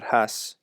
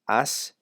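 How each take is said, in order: First: The word starts with an h sound. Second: The word starts with a vowel, no h. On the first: The speaker calls it wrong. "not has" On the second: The speaker calls it right. "it's e, has"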